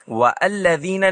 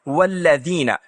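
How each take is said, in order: First: A glottal catch separates wa from the next word. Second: The wa runs straight into the next word. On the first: The speaker calls it wrong. "हम वअल्लज़ीना नहीं कहते, वो गलत है" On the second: The speaker calls it right. "मैं वाव का तलफ़ुज़ करने के बाद इसे बराह रास्त अगले लफ्ज़ से जोड़ता हूँ"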